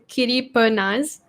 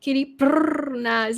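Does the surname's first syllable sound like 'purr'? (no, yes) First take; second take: no; yes. First: The surname's first syllable does not sound like purr. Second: The surname's first syllable sounds like purr. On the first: The speaker calls it wrong. "people pronounce it like they pronounce it this way" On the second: The speaker calls it right. "actually it's supposed to be ... because they purr"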